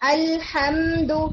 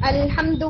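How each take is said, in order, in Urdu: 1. م کی آواز تھوڑی دیر کے لیے کھینچی جاتی ہے۔ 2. م کی آواز جلدی سے مختصر کی جاتی ہے۔ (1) "آپ اس کو تھوڑا سا وقت دیتے ہیں" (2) "ڈزنٹ ساؤنڈ اوکے"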